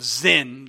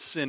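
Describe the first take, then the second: First: The word begins with a z sound. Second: The word begins with an s sound. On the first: This is the original form of the name. "It's actually the wilderness of Zin" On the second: This is the usual English form of the name. "but we pronounce it sin in English"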